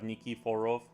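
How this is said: The name is said with O vowels, Russified-style.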